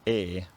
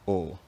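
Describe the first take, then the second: First: The vowel is made at the front. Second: The vowel is made at the back. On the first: "pronounced fronted" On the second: "rather than backed"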